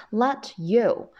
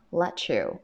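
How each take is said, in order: First: "Let you" as two separate words; unlinked words. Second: "Let you" run together as "le-chu"; linked pronunciation. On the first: Teacher citing the two words before joining them, unlinked. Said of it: "是要进行连读的". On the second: Teacher showing students how the two words link, run together. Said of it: "所以我们读成什么". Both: Shown as a demonstration.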